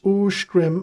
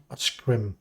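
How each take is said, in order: First: "Uskrim" opening with an oo sound; oo vowel. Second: "Oskrim" with a plain short o; short o vowel. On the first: Reading a fantasy name aloud, opening "Uskrim" on oo. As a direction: start "Uskrim" on oo, not o. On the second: Reading a fantasy name aloud, the wrong way with a short o. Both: Shown as a demonstration. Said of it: "and not Oskrim".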